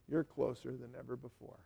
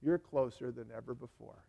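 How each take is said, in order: First: Softer repeat, hushed and intimate; quiet. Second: Said in the usual way. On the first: Real, not acted. Pastor reassuring reconciled believers, softly. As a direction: let it sink in gently. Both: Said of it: "I wanna tell you something".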